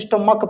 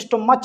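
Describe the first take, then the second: First: The 'ch' is pronounced like a 'k' sound. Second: The 'ch' is pronounced like the 'ch' sound. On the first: The speaker calls it right. "स्टोमक पढ़ते" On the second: The speaker calls it wrong. "यहाँ पे स्टोमच नहीं पढ़ते"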